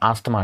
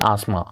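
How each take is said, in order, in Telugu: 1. th శబ్దం పలుకుతుంది. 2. th శబ్దం పలకదు. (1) "దట్ ఈస్ నాట్ ఆస్తమా అండి" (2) "టీహెచ్ అనేది పలకదండి"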